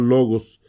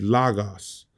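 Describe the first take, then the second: First: The first vowel is a Spanish o sound. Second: The first vowel is a more open, a-like sound. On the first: The speaker calls it right. "yo estoy pronunciando logos como, como lo pronunciaremos en, en español" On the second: The speaker calls it wrong. "Muchos le, les enseñan a decir lagos"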